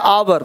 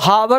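First: The word begins directly with the vowel. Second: The word begins with a breathy h sound. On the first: The speaker calls it right. "पढ़ते हैं आवर" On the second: The speaker calls it wrong. "इसको हावर नहीं पढ़ते हैं ना"

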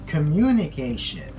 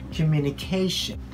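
First: The stress falls on the second syllable. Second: The stress falls on the fourth syllable. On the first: The speaker calls it wrong. "So we put the stress on the second syllable. But it's not the way we pronounce that word" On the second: The speaker calls it right. "So we say communication"

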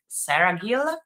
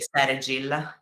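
First: It is pronounced the original English way. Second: It is pronounced the Italian way.

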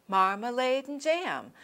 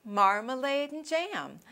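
Both takes have the same delivery.

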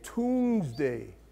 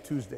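First: It is said in an imitated Meru accent. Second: It is said in a plain standard accent. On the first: "you know how they say that?" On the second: "They don't say Tuesday. They can't say it"

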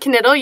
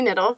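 First: The name begins with a clearly pronounced K sound. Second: The name begins with an N sound, K silent. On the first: The speaker calls it right. "You pronounce the K" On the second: The speaker calls it wrong. "Not Emily Knittle"

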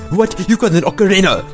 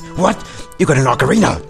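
First: It is said in an imitated Scottish accent. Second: It is said in a low, gruff voice. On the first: "He kind of reminds me of Groundkeeper Willy. Like" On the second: "I'll just stick to the gruff voice"

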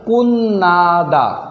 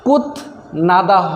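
First: The t becomes n, giving a double n. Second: A t sound is heard before the n. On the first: The speaker calls it right. "সঠিক উচ্চারণ হবে কুন্নাদা" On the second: The speaker calls it wrong. "কুত নাদা হবে না ভাই"

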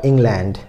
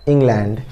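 Both takes have the same delivery.

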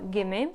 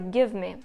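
First: The two words run together as one. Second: Each word is said clearly on its own. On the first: "не використовувати слово give me" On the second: "вимовляти кожне слово окремо"

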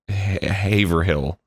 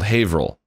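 First: The name is said the Florida local way. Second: The name is said the New England way. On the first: This is how other locals in Florida say the name. "everyone else pronounced it Haverhill" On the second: This is how the name is said in its home region. "in New England, it's called Haverhill"

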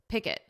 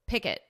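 First: The two syllables are joined into one word. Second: The same.

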